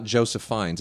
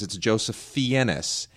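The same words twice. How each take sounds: First: FIENNES said "Fines", one syllable; rejected pronunciation. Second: FIENNES said "fee-EN-ess", stretched out slowly; insisted pronunciation. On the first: Host quoting the brother rejecting it, Fiennes as Fines. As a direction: say Fiennes to rhyme with lines. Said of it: "my name's not". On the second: Host quoting the brother's insistence, Fiennes as slow fee-EN-ess. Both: Retold or imitated.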